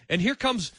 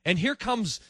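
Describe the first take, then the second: No difference in how they are said.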